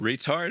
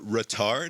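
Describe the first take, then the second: First: It is pronounced in the ordinary, plain way. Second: It is pronounced in a fancier, more delicate way.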